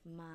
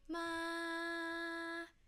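First: It is said at a low pitch. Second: It is said at a high pitch.

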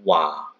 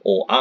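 First: The two vowels glide quickly into one syllable. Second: The two vowels are said as separate sounds. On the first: The speaker calls it right. "kalau dibaca cepat menjadi wa" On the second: The speaker calls it wrong. "bukan o a"

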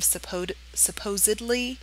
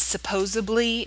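First: The word is said carefully, with every sound clear. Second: The word is said loosely, with sounds slurred. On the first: The speaker calls it right. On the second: The speaker calls it wrong.

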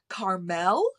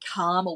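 First: The name is said with an American pronunciation. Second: The name is said with an Australian pronunciation. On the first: The speaker calls it wrong. "they called her Carmel, which was so weird" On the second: The speaker calls it right. "we're Australian and we say Carmel"

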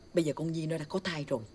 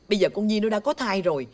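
First: The sentence is said at medium volume. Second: The sentence is said very loudly. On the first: "Tăng lên chút phải không?" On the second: "Bà làm ơn bà nói nhỏ nhỏ giùm tôi cái. Nó lớn quá"

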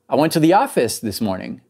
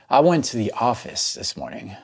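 First: The voice sounds excited. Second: The voice sounds frustrated. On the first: The speaker is happy about going to the office. "there's a hint of excitement in there" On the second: The speaker is annoyed about going to the office. "A little bit of frustration"

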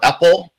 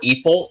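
First: The first vowel is not an 'ee' sound. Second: The first vowel is an 'ee' sound. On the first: "or EPL" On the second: "if you prefer an E kind of sound"

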